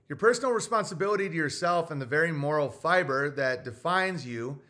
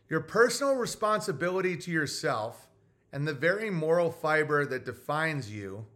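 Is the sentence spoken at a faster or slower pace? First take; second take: faster; slower. First: It is spoken at a normal, quicker pace. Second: It is spoken at a slower, deliberate pace.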